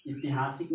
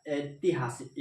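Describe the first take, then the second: First: ऐतिहासिक said as इतिहासिक with a short इ at the start; wrong pronunciation. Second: ऐतिहासिक with a clear ऐ at the start; correct pronunciation. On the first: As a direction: show the common mistake: इतिहासिक for ऐतिहासिक. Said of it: "नहीं होता है". (ऐतिहासिक को गलत ढंग से इ से बोलना) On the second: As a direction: show the right way: ऐ-तिहासिक. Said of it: "ए, आई होता है ना". (ऐतिहासिक को सही ऐ की ध्वनि से बोलना) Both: Shown as a demonstration.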